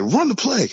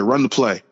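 First: Retold yell. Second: Said in the usual way. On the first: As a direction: yell it in retelling, voice jumping way up. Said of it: "I just yelled". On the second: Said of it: "I said".

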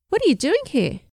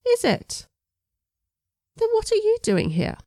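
First: Surprised. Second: Much higher, mock-surprised English accent; an English man playfully countering the girl's question. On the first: Girl surprised by teacher. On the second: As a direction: turn the question back on her, English gent. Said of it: "strong English accent". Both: A narrator's reading.

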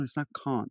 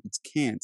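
First: CAN'T said "cahnt", with a long ah; can't with the vowel of "father"; British can't. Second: CAN'T corrected to a short a, as in cat; can't with the vowel of "cat"; American can't. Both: Retold or imitated.

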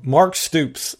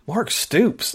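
First: Said in the usual way. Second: Higher, softer questioning repeat; mildly incredulous retold reaction. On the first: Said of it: "Pete Thamel said". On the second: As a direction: echo the name in mild disbelief. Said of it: "And I'm thinking".

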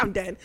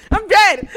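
First: Soft, understated disbelief; quiet aside. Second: Loud, high fangirl outburst; excited outburst. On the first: Fan reacts to idol sipping her cup, softly. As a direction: say it softly, as if stunned. First, low-key take of reaction. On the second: Fan reacts to idol sipping her cup, loud outburst. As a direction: burst out, overwhelmed and high-pitched. Repeats reaction much bigger. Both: Retold or imitated.

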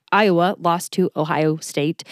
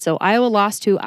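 First: Slowed down, each word placed; careful and slow. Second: Said in the usual way. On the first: Shown as a demonstration. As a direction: say it slowly to get it right. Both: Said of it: "That's harder to say than I anticipated".

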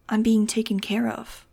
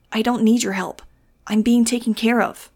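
First: Slow, hushed assurance; slowly insist, keeping the volume down; calm insistence. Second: Loud, raised defiant cry; higher, louder refusal of help; shouting. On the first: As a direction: draw it out with a touch of whisper. Kid insists before later shouting. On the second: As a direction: shout it back over your shoulder. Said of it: "he shouted over his shoulder". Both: A narrator's reading.

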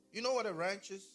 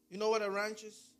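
The two takes are said the same way.

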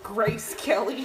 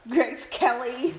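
First: "Grace Kelly" echoed with a laugh. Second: Drawn-out, sing-song "Grace Kelly"; playful. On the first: Echoing the joke, laughing. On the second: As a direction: tease the name "Grace Kelly", slow and lilting. Jokingly repeating the famous name. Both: Pretend.

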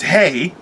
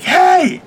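First: Said in the usual way. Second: High, loud shouted greeting; bursting through the wall with a shout; shouted hey. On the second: Retold or imitated. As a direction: burst in with a big yell. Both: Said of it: "and I'm like".

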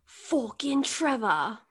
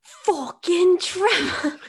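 First: Restrained British curse; second try at British. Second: Much higher, louder, slow mock British; hammed-up British curse; bad British accent. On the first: Retold or imitated. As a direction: try the accent again, toned down. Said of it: "I'll give you another chance". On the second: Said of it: "you have to do it in his accent".

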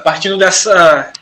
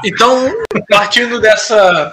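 First: Slow fading restart; trailing off. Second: Drawn-out unsure start; slow hesitant restart. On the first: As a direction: let it trail off while thinking. (arrastando e perdendo o fio) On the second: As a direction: stall slowly while finding the thought. (recomeço lento e hesitante) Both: Real, not acted. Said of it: "esqueci o que eu ia falar".

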